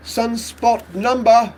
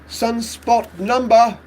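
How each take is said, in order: First: It is spoken in a British accent. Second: The same.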